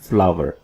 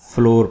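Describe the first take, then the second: First: The word rhymes with flower. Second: The word rhymes with floor. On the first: The speaker calls it right. "ये है फ्लावर" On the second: The speaker calls it wrong. "इसको हम अब तक फ्लोर पढ़ते हैं"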